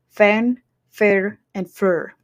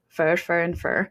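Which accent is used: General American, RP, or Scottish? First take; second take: Scottish; RP. First: The three words have different vowels and rolled R's. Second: The three words have the same British vowel. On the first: "in Scottish English, it's going to be different" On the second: "In modern R P, they are going to be also the same"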